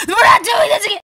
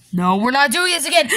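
First: High, loud whiny cry; crying shout. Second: Said in the usual way. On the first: Acted. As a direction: cry out in protest. Refusal repeated, cry.

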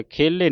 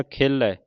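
First: ਖੇਲੇ with a closed final "ay"; wrong ending demo. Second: ਖੇਲੇ with an open final "ai"; correct open ending. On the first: Teacher showing what not to read, ਖੇਲੇ ending "ay". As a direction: say ਖੇਲੇ as "khay-lay". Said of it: "ਖੇਲੇ ਨਹੀਂ ਪੜ੍ਹਨਾ". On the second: Teacher showing the right reading, ਖੇਲੇ ending in open "ai". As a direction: say ਖੇਲੇ as "khay-leh", open vowel. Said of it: "ਲੱਲੇ ਦਲਾਵਾਂ". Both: Shown as a demonstration.

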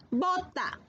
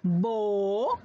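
First: Said in the usual way. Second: "Bota" stretched as bo...ta in two beats; syllable by syllable. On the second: Shown as a demonstration. Teacher models "Bota" slowly for pupils. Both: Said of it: "pronunciar la palabra".

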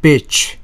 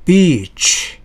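First: "Bitch" with a short clipped i; "Bitch" short i, not long ee; short vowel. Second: "beach" with a long stretched ee, pitched up; "beach" held long, never short; long vowel. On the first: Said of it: "앞에 것은 짧게 발음해야 돼요". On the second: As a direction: draw out the ee in "beach". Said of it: "길게 발음하는 게". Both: Shown as a demonstration.

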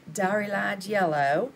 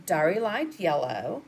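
First: Slow, drawn-out Southern American accent. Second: Said in the usual way. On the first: Shown as a demonstration. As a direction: say the color name in a playful Southern accent. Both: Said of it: "it always sounds better when you say it with a Southern accent".

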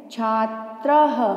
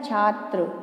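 First: छात्रः slowly, with "ha" at the end; visarga sounded. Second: छात्र ending on tra, no h; visarga left off. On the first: Teacher proving she said more than tra, visarga sounded as ha. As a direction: let an h sound follow छात्र. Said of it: "है की sound आ रही है पीछे". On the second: Teacher showing pupils the word without its dots, visarga left off. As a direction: say छात्र without the final "ha" sound. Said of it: "इन dots का उच्चारण नहीं करती हूँ". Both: Shown as a demonstration.

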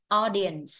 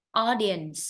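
Both takes have the same delivery.

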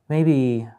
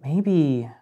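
The two takes are said the same way.

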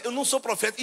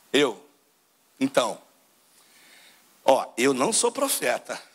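First: Said in the usual way. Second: Lower, slower John, humble and firm; voicing John the Baptist. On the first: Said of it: "Ele manda logo essa". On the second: Preacher acts out John answering the Levites, low and slow. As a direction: drop low and take it slowly, like a prophet. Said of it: "João fala assim".

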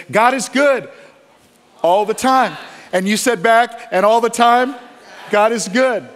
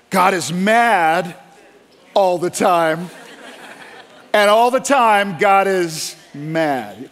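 First: Loud, high call-and-response chant; worship leader call and response. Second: Slow, drawn-out mock sermon line; mocking angry preacher. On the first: Retold or imitated. Worship leader rallying the congregation, loud and high. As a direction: echo the worship leader's rally cry to the crowd. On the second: Preacher parodied by pastor, slow mock-solemn drawl. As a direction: parody a harsh preacher's refrain. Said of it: "the preacher got up and he said".

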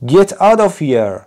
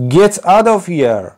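First: High, slow read-aloud scream; a drawn-out storybook shout, raised high; old man screaming. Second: High, slow read-aloud scream; a storybook yell, drawn out and raised; old man screaming. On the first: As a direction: yell it again as the old man. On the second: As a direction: shout it as the angry old man. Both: A narrator's reading. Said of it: "screamed the old man".

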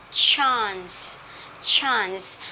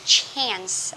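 First: "chance" with a long open "ah", chahns; non-American pronunciation. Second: American "chance" with a flat "a" as in "cat"; American accent. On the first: Teacher models chance for learners, long-ah pronunciation. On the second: Teacher shows how Americans read chance, American accent. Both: Shown as a demonstration. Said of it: "Anh Mỹ sẽ đọc từ này là từ chance".

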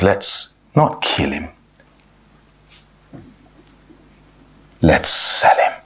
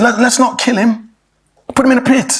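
First: Low, slow, calculated delivery; Judah. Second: Higher-pitched, urgent pleading; a touch of panic, pitched up; mildly panicked. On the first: Judah proposes selling his brother, low and coolly deliberate. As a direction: drop low and draw it out, voice fading away. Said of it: "that's the sharp contrast". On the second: Reuben pleads with his brothers over Joseph, mildly panicked. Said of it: "he was panicking about the situation". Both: Acted.

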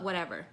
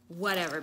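First: Said in the usual way. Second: Unvoiced whisper of "Whatever". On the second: Shown as a demonstration. Shrugging off her makeup, whispered. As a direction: breathe "Whatever" with no voice.

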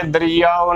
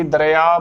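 First: ਦਰਿਆਓ in full, "da-ree-yaa-o"; correct pronunciation. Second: ਦਰਿਆ said "da-re-aa", without final o; wrong shortened form. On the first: Teacher showing every vowel sign, careful pronunciation. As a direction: sound the final o of ਦਰਿਆਓ. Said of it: "ਬੋਲਣਾ ਹੈ". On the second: Teacher showing the form to avoid, mispronunciation. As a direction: drop the ending: ਦਰਿਆ as "dareaa". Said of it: "ਗਲਤ ਉਚਾਰਨ ਹੋਵੇਗਾ". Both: Shown as a demonstration.

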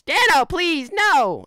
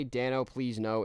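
First: High, loud, slow drawn-out wail; Riggy voice. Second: Said in the usual way. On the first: Pretend. For a viewer's request, Riggy begging Dano in a high, slow wail. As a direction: wail it out like a begging cartoon creature. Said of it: "in the Riggy voice?". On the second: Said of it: "can you say".

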